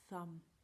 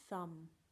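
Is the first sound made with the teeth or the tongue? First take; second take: tongue; tongue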